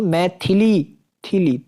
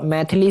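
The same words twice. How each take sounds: First: मैथिली as mai-thi-lee, syllables stretched; corrected pronunciation. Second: मैथिली squeezed to maith-li; wrong pronunciation. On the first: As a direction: sound both i vowels in मैथिली. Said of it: "थ पे भी". (मैथिली में 'थिली' खींचकर बोलें) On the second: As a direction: swallow the middle i of मैथिली. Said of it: "नहीं". (मैथिली को 'मैथली' बोलें) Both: Shown as a demonstration.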